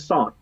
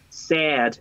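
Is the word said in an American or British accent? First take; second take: British; American. First: The word is said in a British accent. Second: The word is said in an American accent. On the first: "en británico dice sad" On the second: "En American se dice sad"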